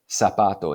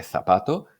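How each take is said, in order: First: Zapato with an S sound, sapato; seseo. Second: Zapato with a TH sound, thapato; Castilian Z. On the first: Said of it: "pronunciar la Z o la C como si fueran S". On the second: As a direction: say zapato the peninsular way, Z as TH. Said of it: "en lugar de". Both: Shown as a demonstration.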